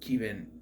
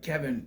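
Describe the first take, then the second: First: The first vowel is a long 'ee' sound. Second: The first vowel is a short 'e' sound. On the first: "but pronounced like Steven" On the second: "it's like Kevin"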